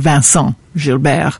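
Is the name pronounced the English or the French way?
French. The name is pronounced the French way.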